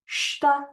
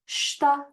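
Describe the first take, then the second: First: The word starts directly with the sh sound. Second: The same.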